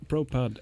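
The word is given an English-sounding pronunciation.

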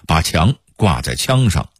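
The high and rising tones are swapped. "平谷话说的是"

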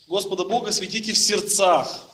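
The stress falls on the words в сердцах. "сделают ударение на слово в сердцах"

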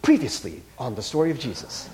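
It is said in a dramatic announcer voice.

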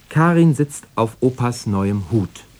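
The stress falls on the word Hut. It is the hat, not a chair, being sat on. "Also nicht auf dem Stuhl, sondern auf Opas neuem Hut"

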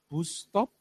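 The u in bus sounds like put. "U tetap dibaca U"

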